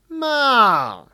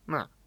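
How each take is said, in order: First: The pitch starts high and falls low. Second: The pitch starts middle and falls low. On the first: The speaker calls it right. "Whereas if it's high and low" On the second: The speaker calls it wrong. "I'll say ma, ma. And then it's very similar to third tone because you're starting too low"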